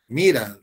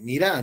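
First: The stress is on the first syllable. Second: The stress is on the last syllable. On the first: "Es una palabra grave" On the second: "y ellos dicen mira"

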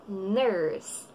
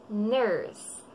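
The two takes are said the same way.

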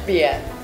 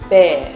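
First: The word sounds like 'bia'. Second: The word sounds like 'bear'. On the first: The speaker calls it wrong. "not bia" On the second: The speaker calls it right. "the correct pronunciation of this word is bear"

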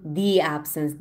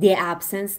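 First: The word 'the' is said like 'thee'. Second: The word 'the' is said like 'thuh'. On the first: The speaker calls it right. "چون absence با A شروع شده، which is a vowel sound" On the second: The speaker calls it wrong. "the absence نمیگم"

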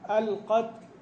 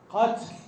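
First: The t is released with only a light breath. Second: The t is released with a heavy, exaggerated puff. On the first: The speaker calls it right. "لا هو شيء بسيط من النفس يخرج" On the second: The speaker calls it wrong. "هذا ليس همسا"

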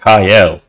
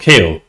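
First: The vowel sounds like 'eye'. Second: The vowel sounds like 'ay'. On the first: The speaker calls it wrong. "Since when was he called Kyle?" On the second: The speaker calls it right. "Is it not Kale?"

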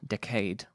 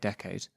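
First: The stress falls on the second syllable. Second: The stress falls on the first syllable. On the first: It is an older, traditional way used in the poem. "you do need to put the emphasis on the second syllable" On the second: It is the speaker's usual everyday way. "which I would usually say decade"

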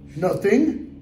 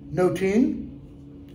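First: The middle consonant is a 'th' sound. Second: The middle consonant is a plain 't' sound.

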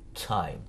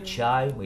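First: The first sound is a plain alveolar t. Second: The first sound is a ch-like affricate. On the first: "Но норматив Т просто" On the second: "Или chime, или time. Ну просто по-другому чуть-чуть"

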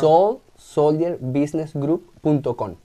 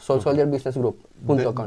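First: It is said more slowly. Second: It is said at normal speed.

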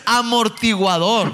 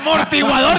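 First: The word starts with an a vowel sound. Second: The word starts directly with an m sound. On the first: The speaker calls it right. "No mames, es amortiguador" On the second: The speaker calls it wrong. "mortiguador, dice el otro también"

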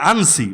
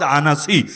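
First: The name is said with two syllables. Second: The name is said with three syllables. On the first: The speaker calls it wrong. "অনেকে বলে আনসি" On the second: The speaker calls it right. "মূল উচ্চারণ আনাসি"

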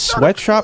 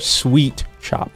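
First: The first word has a short vowel, like 'sweat'. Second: The first word has a long vowel, like 'sweet'. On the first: The speaker calls it wrong. "some people mispronounce it as sweatshop" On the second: The speaker calls it right. "No. Sweet Shop"

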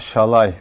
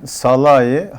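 First: The name begins with a sh sound. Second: The name begins with a plain s sound. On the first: The speaker calls it right. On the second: The speaker calls it wrong.

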